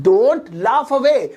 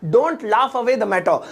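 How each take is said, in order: First: Very slow, each word held; slow model repeat. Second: Said in the usual way. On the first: Shown as a demonstration. Teacher repeats the phrase for students, slow and stretched. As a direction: draw out "don't laugh away," word by word.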